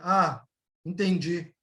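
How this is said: It sounds reluctant and displeased. The speaker understood but did not like it. "Entendi, mas não gostei"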